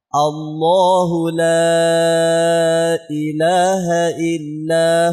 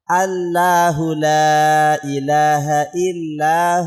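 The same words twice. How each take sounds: First: The l sound in Allahu is thick. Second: The l sound in Allahu is thin. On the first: The speaker calls it right. "Lamnya harus tebal" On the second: The speaker calls it wrong. "Itu tipis semua"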